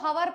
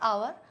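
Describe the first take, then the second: First: The word begins with an audible h sound. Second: The word begins with a vowel, no h. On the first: The speaker calls it wrong. "जो इसको हवर पढ़ेगा वो गलत कर देगा" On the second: The speaker calls it right. "एच is a silent word here ... correct pronunciation is आवर"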